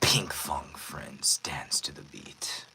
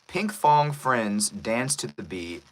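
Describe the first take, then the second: First: It is read in a menacing, villainous voice. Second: It is read in a plain, normal voice. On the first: "read this wonderful script in a very villainous voice" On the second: "This isn't the villainous voice, by the way. I'm just reading it through"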